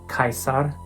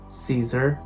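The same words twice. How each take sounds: First: The name has its classical Latin pronunciation. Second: The name has its usual English pronunciation. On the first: "in Latin they are originally pronounced" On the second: "perfectly correct to pronounce them"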